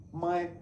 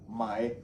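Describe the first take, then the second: First: "my" with the pitch sliding up; "my" sung upward like a question; rising Chinese tone. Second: Said in the usual way. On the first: Shown as a demonstration. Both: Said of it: "the tone going up is".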